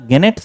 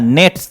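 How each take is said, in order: First: The word begins with a g sound. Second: The word begins with an n sound. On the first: The speaker calls it wrong. "यहां गेनेट्स नहीं पढ़िएगा" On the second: The speaker calls it right. "जी यहां silent है"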